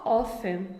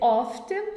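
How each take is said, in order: First: The t sound in the middle is silent. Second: The t sound in the middle is pronounced. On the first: "ou pode ser só often" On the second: "quando eles pronunciam T"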